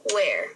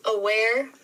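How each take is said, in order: First: "aware" broken into a, ware; split into syllables. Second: Said in the usual way. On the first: Shown as a demonstration. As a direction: say "aware" in two separate beats. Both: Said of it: "break down those syllables".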